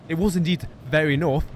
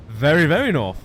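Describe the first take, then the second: First: Said in the usual way. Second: Very, very hit louder; stress on very. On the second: Shown as a demonstration. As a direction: lean hard on each very.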